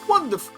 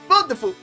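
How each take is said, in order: First: It is said without the character's accent. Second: It is said in the character's put-on accent.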